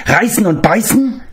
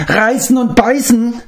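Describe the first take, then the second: First: High creature voice, question rising at the end; prompting creature. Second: High, whimpering question falling at the end; whimpering creature. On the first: Gurgi reminds Gwydion of his reward, high hopeful creature voice. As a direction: nudge them with a hopeful little reminder. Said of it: "brachte Gurgi sich in Erinnerung". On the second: Gurgi whimpers at Gwydion, high whimpering creature voice. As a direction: whine it like a frightened little beast. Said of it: "verdrehte die Augen und winselte". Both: Acted.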